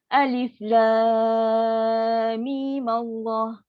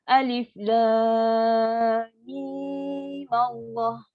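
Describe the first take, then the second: First: The vowel in 'mim' is held briefly. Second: The vowel in 'mim' is drawn out long. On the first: "mim ni baca dengan dua hakan" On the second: "kita baca dengan enam harkat"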